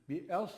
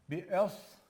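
First: "Bi es" with the s made thick and heavy. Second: "Bi es" with the s kept thin and light, the wrong way. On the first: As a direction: say "Bi es" with a full, thick s. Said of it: "kalın, tamam mı". ("Bi es" kalın okunmuş, doğru) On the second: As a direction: say "Bi es" thin, as the mistake. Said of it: "bi es değil". ("Bi es" ince okunmuş, yanlış) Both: Shown as a demonstration.

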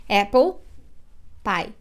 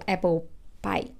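First: "apple" then a pause before "pie"; teacher splitting "apple" from "pie" on purpose; broken apple pie. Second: "apple pie" run together with no break; teacher linking "apple" straight into "pie"; linked apple pie. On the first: Teacher showing students the wrong, split apple pie. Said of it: "eu não falo assim". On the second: Teacher showing students the right, linked apple pie. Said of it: "nem uma paradinha eu não dou". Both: Shown as a demonstration.

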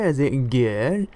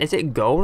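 First: "good" drawn out in a tentative American accent; attempted American accent. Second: Said in the usual way. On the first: Shown as a demonstration. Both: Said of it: "how to say it in an American voice".

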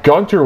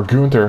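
First: Said in the usual way. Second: Gunter said the other possible way; alternate pronunciation. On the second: Shown as a demonstration. Podcaster offering another way to call him, alternate pronunciation of Gunter. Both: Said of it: "however you want to call it".

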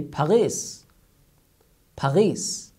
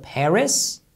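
First: "Paris" with a French gargled r, pah-REE. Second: Said in the usual way. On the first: Retold or imitated. Teacher imitates how French people say Paris. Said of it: "how they pronounce it". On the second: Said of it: "Instead of".

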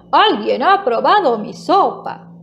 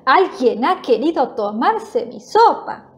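First: Lightly voiced big bear, emphatic; a touch of storybook booming; powerful big bear voice. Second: Mildly cross mama bear; a touch of indignation, lightly acted; angry voice. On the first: Big bear finds his soup tasted, mildly powerful voice. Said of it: "voz potente". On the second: Mama bear looks at her spoon, mildly angry voice. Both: A narrator's reading.

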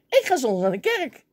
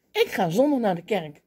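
First: Full of bravado. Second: Said in the usual way. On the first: Retold or imitated. Young man boldly tells colleagues his Sunday plan, full of bravado. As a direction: proudly announce it, chest out. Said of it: "Vol bravoer".

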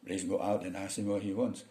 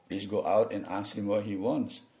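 First: A lightly voiced native English read of the boss's order at natural speed; native English speaker. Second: The boss's order read slowly and word by word; slow learner's read. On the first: A teacher showing the class how a native English speaker gives this order. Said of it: "orang bule ngomong pakai bahasa, bahasa Inggris ini". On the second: A teacher reading the boss's order slowly for the class. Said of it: "orang bule ngomong pakai bahasa". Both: Shown as a demonstration.

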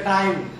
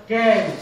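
First: Counter-example "time", vowel as in "eye"; "time" with a wide ah-ee vowel; wrong "time". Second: "time" leaning towards "tame"; A-glide in "time". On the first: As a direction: say "time" with an open eye glide. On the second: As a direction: say "can" as "time" with an ay vowel, like "tame". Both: Shown as a demonstration. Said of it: "Don't say time".

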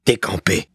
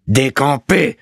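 First: Contained, firm command; stern order. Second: High, drawn-out command; insistent repeated order. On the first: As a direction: order it firmly without raising the voice. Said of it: "ordonna l'huissier". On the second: Bailiff repeating his order to the stunned landlord, raised and insistent. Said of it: "répéta Malicorne". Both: A narrator's reading.

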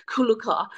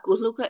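First: "kuluka" said as the corrected version; children's kuluka pronunciation. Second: "kuluka" said as the version being corrected; usual kuluka pronunciation. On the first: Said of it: "it's kuluka". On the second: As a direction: say "kuluka" plainly, as the rejected form. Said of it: "But it's not kuluka". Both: Shown as a demonstration.

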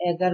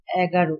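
First: এগার ending in an open "aw" instead of o; open final vowel. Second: এগারো ending in a rounded, closed o; final o. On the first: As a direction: leave the last vowel of এগার open, as the counterexample. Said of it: "আমরা কিন্তু এগার বলি না". (শেষের অ খোলা রেখে "এগার") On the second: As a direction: close the last vowel of এগারো to "ro". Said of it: "ও এর মতো হয়েছে বা সংবৃত". (শেষে স্পষ্ট ও দিয়ে "এগারো") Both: Shown as a demonstration.

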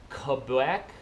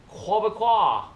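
First: "Quebec" with rising tune; Canadian accent, lift the end of "Quebec"; practising Canadian accent. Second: High "Quebecois", choking on the last syllable; French-Canadian accent, choke out the end of "Quebecois"; mock Québécois accent. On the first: Vlogger practising "Quebec", Canadian accent, rising. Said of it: "I'll practice". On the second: Vlogger practising "Quebecois", choked mock French-Canadian accent. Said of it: "choke on the last claw". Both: Shown as a demonstration.

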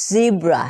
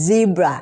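First: "zebra" with a brief initial z; Z word model. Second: "zebra" with a long buzzed z at the start; exaggerated Z. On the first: Teacher models the word for learners, careful pronunciation. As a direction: say "zebra" with only a short buzz at the start. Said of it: "ออกเสียงเป็น". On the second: Teacher shows "like this" to learners, exaggerated Z. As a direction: hold the buzz before the rest of "zebra". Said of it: "แบบนี้นะคะ". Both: Shown as a demonstration.

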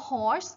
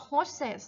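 First: Horse as one syllable; singular pronunciation. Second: Horses as two syllables, HOR-ses; plural pronunciation. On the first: Teacher shows how the English word "horse" is pronounced, singular pronunciation. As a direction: say "horse" with no extra ending. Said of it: "คำภาษาอังกฤษออกเสียงว่า horse". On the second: Teacher shows how "horses" is read with s added, plural pronunciation. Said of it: "เขาเติม s เข้าไปอ่านว่า horses". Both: Shown as a demonstration.

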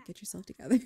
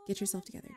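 First: Louder, firmer self-scolding; mock panicked pep talk, suddenly raised; freaking out. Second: Said in the usual way. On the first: Nervous applicant telling herself off before interview, louder and flustered. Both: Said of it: "She's freaking out".

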